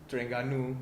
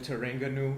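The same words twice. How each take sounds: First: The name is said the local Malaysian way. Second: The name is said with a foreign sound. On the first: The speaker calls it right. "they don't say Terengganu" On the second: The speaker calls it wrong. "they call it Terengganu"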